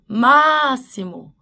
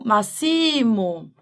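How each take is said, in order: First: The stress falls on the first syllable. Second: The stress falls on a later syllable. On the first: The speaker calls it right. "Então você fala máximo" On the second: The speaker calls it wrong. "e não máximo"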